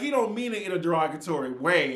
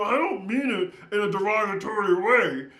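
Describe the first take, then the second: First: It is said in her normal speaking voice. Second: It is said in an odd put-on voice.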